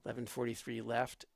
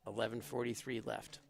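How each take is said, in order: Both takes have the same delivery.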